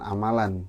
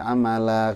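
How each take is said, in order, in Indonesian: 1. Kata ini diakhiri dengan bunyi n. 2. Kata ini diakhiri dengan vokal, tanpa n. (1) "dibacanya jangan amalan" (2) "tapi amala kalau berhenti"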